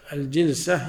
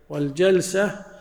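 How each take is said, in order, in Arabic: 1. المقطع الأول فيه الكسرة 'i'. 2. المقطع الأول فيه الفتحة 'a'. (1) "وإذا أردنا الصفة نذكر بالكسر" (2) "الجلسة الواحدة المرة ننطق بالفتح"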